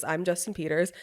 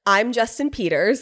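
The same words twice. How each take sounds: First: Softer repeat of a fed line; imitating obedient echo. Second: Feed the line to be repeated; lead-in take, pitched near own voice; retold prompt. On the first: Husband repeats after his wife, softer echo. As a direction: echo it back quietly, slightly lower. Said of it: "And then he goes". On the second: Wife has husband repeat after her, prompting. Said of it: "I was like, "Repeat after me".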